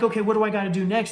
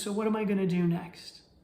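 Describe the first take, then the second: First: It is said in a hurried, urgent tone. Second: It is said in a calm, accepting tone.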